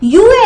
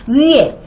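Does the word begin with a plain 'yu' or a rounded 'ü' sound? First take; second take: plain yu; rounded ü. First: It begins with a plain 'yu' glide sound. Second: It begins with a rounded 'ü' vowel sound. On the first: The speaker calls it wrong. "이거 유에 아니고" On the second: The speaker calls it right. "위에라고 발음해야 돼"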